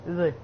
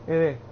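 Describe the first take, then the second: No difference in how they are said.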